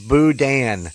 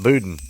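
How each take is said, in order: First: Boudin said boo-DAN; corrected pronunciation. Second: Boudin said BOO-din; everyday pronunciation. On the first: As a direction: say Boudin as boo-DAN, stress on the second syllable. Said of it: "I got corrected on Boudin". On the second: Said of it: "'cause we call it Boudin". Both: Shown as a demonstration.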